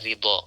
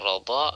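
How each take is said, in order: First: The first vowel is a close 'i' sound. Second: The first vowel is an open 'a' sound. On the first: "wa kasriha, dan kasrahnya ra" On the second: "bisa dibaca dengan bi fathir ra, dengan fathahnya ra"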